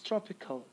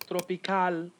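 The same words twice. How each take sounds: First: The last syllable has a weak schwa vowel. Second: The last syllable has a full vowel. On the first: The speaker calls it right. "replaced with a schwa" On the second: The speaker calls it wrong. "it's not tropical"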